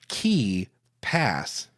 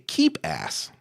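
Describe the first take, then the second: First: The name is said at a normal, slower pace. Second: The name is said quickly, running together.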